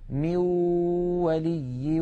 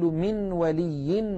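First: The n becomes a plain w without nasality. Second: A clear n is pronounced before the w. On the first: "فيأتون بواو محضة ليس معها غنة من الخيشوم" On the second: "ولا نقول من ولي ولا نصير، لا نظهر النون هكذا"

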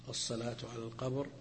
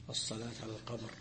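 The two takes are said the same way.

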